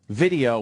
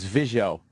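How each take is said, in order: First: The middle consonant is a clear d sound. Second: The middle consonant is slurred into an s sound. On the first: "he said video, too" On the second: "Video was visio"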